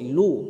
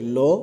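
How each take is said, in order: First: The vowel is an 'u' sound. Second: The vowel is an 'o' sound. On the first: The speaker calls it right. "মারুফ উচ্চারণ করতে হবে" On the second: The speaker calls it wrong. "এই লো পড়া চলবে না"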